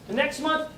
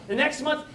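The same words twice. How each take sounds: The two takes are said the same way.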